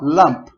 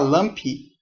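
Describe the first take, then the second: First: The word ends cleanly on the p sound. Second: An extra vowel sound follows the final p. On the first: The speaker calls it right. "Não pode colocar um sonzinho a mais" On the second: The speaker calls it wrong. "se eu falar lumpy, que a gente tem o costume de querer colocar sempre uma, um sonzinho a mais atrás"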